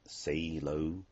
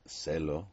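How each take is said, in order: First: It is said like the English words. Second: It is said with Spanish vowel sounds. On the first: The speaker calls it wrong. "not say low" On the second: The speaker calls it right. "obviously you would pronounce it celo"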